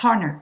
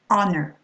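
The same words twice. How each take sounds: First: The word starts with a sounded H. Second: The word starts with no H sound. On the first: The speaker calls it wrong. "You're not going to say honor" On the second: The speaker calls it right. "we mustn't hear the H pronounced here"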